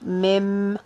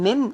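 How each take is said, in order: First: The word ends with an m sound. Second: The word ends with an n sound. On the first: The speaker calls it right. "the noon is gonna be changed to be meme" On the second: The speaker calls it wrong. "instead of saying min"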